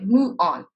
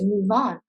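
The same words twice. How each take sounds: First: The v sound is left out entirely. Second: The v sound links into the next vowel. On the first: The speaker calls it wrong. "they drop the v sound" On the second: The speaker calls it right. "We connect the vowel like v and then on"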